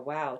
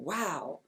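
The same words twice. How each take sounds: First: The word is said plainly, without extra emphasis. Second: The word is said with strong, sharpened emphasis.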